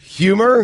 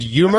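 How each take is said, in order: First: The h sound at the start is pronounced. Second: The h sound at the start is dropped. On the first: The speaker calls it right. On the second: The speaker calls it wrong. "I swallow my H's"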